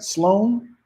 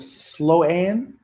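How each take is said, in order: First: The name is said as one syllable. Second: The name is said as two syllables. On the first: The speaker calls it right. "Am I saying it right?" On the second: The speaker calls it wrong. "Is it Slow Ann?"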